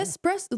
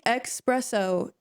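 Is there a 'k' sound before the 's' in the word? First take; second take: no; yes. First: It is said with a plain s sound: es-presso. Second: It is said with an x sound: ex-presso. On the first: The speaker calls it right. "Like it's espresso. Like where's the X?" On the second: The speaker calls it wrong. "the amount of people that say espresso"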